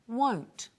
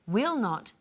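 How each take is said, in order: First: It is said as one contracted syllable. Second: It is said as two full words.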